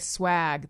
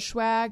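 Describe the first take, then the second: First: The word begins with a plain s sound. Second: The word begins with an sh sound. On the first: "the first time I heard someone say swag, that sounded weird" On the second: "I always thought it was schwag"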